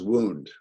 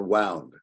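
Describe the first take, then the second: First: "wound" said as waund, like wind a bandage, slowly; pronounced wound rhyming with round. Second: "wound" said as woond, rhyming with moon; pronounced wound as in injury. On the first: Teacher demonstrating the first answer, "wound" as in "round". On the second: Teacher contrasting the injury sense, "wound" like "moon". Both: Shown as a demonstration. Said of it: "That answer is wound or wound".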